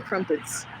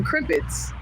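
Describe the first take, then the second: First: Crumpets with "crump" as the first syllable; British version. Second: Crimpets with "crimp" as the first syllable; American version. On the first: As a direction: say crumpets with a short U as in "jump". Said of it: "Y'all call 'em crumpets". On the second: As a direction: say crimpets with a short I as in "limp". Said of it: "we call 'em crimpets". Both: Shown as a demonstration.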